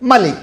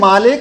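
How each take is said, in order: First: The first vowel of malik is kept short. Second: The first vowel of malik is drawn out long. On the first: "এখানে টান নাই" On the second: "সূরা ফাতিহার মধ্যে"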